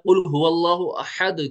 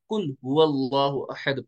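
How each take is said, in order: First: The first word starts with a deep throaty Q. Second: The first word starts with a plain front K. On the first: It means: say, he is God, the one. The speaker calls it right. "कुल हुवल्लाहु अहद की जगह" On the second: The first word now means eat, changing the meaning. The speaker calls it wrong. "इससे कुल नहीं बनेगा... कुल का मतलब होता है खाओ"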